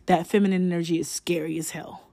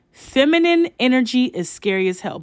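First: Said in the usual way. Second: "Feminine" hit higher, whole line raised; emphatic repeat. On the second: Real, not acted. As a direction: stress "Feminine" and "hell", pitched up.

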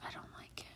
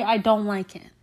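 First: Barely audible, voiceless whisper. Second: Said in the usual way. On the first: Real, not acted. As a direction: whisper it like a guilty admission. Repeats the line in a whisper.

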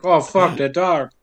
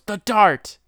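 First: Belated realization. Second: High, loud mock outburst; sudden exclamation. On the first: Acted. Stabbed man notices what he felt earlier, understated realization. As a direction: say it at usual volume, as a dawning afterthought. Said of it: "like, say". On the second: Stabbed man calls out what hit him, mock alarm. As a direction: blurt it out, pitched way up. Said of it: "he goes".

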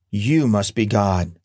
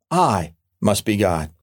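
First: "You must be God." with YOU leaned on, slow and falling; the dog humbly handing the glory away: "You"; stress on YOU. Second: "I must be God." with I leaned on, slow and falling; the smug cat claiming the glory: "I"; stress on I. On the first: Dog voiced in a joke, stress on YOU. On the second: Cat voiced in a joke, stress on I. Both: Acted.

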